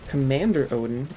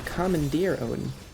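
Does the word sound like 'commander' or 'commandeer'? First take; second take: commander; commandeer. First: The first word ends like 'commander'. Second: The first word ends like 'commandeer'. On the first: The speaker calls it wrong. "the way that a lot of people pronounce it, is not" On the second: The speaker calls it right. "it's actually"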